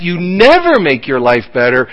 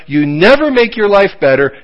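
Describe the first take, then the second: First: "never" hit as the key word; stress on never. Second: "never" pressed hard; stress on never. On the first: Preacher corrects himself, leaning on "never". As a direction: lean on "never". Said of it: "you don't make your life better". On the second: Preacher repeats the warning, pressing "never". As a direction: push down on "never". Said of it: "When you disobey God". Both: Shown as a demonstration.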